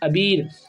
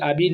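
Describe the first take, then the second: First: The first vowel is short. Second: The first vowel is long. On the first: The speaker calls it right. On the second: The speaker calls it wrong. "आबीर नहीं"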